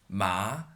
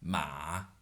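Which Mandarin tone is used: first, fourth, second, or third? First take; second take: second; third. First: The syllable is said with the second tone. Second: The syllable is said with the third tone.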